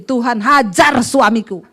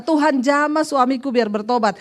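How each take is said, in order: First: Hajar punched slow and louder; stress on hajar. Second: Said in the usual way. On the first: Shown as a demonstration. Pastor teaching a wife her new prayer, stressing hajar. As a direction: lean hard on the word hajar. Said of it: "Sekarang doanya ganti". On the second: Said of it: "Dulu ibu berdoa gimana?".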